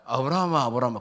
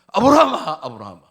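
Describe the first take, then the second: First: It is said in a plain, calm way. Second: It is said in an urgent, hurried way.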